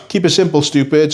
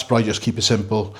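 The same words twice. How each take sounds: First: Higher, louder punchy catchphrase; emphatic slogan. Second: Said in the usual way. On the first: Acted. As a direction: bark out the motto.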